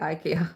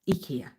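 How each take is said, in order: First: It is said the everyday British way. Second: It is said the way the advert says it. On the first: "we're British dudes. We say IKEA" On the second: "When I say it, I just sound like the advert"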